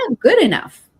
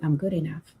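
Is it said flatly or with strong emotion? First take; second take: strong emotion; flatly. First: It is said with strong, felt emotion. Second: It is said flatly, without conviction.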